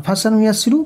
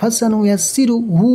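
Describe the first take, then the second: First: ফাসানু ইয়াসসিরু with every vowel short; no stretch. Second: Short vowels, then হু held long; stretch only হু. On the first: Teacher showing which parts stay short, unstretched vowels. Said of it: "কোনো টান হবে না". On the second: Teacher showing the one stretched syllable, long হু. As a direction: keep ফাসানু ইয়াসসিরু short and lengthen the final হু. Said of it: "তাহলে শুধু হুটা just টান হবে". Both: Shown as a demonstration.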